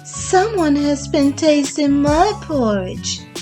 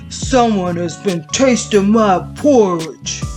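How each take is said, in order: First: It is said in a medium-sized voice. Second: It is said in a big, deep voice. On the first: "in a middle-sized voice" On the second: "in his great big voice"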